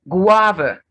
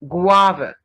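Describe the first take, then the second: The two takes are said the same way.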